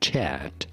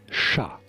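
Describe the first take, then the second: First: The final T is pronounced. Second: The final T is silent. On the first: The speaker calls it wrong. "it is not chat. That's English" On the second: The speaker calls it right. "The T is silent"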